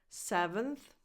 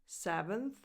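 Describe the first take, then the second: No difference in how they are said.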